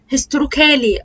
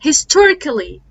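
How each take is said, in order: First: The vowel before the final L is fully pronounced. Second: The vowel before the final L is silent. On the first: The speaker calls it wrong. "معظم الناس بتقول" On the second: The speaker calls it right. "ال A ما بتتنطقش"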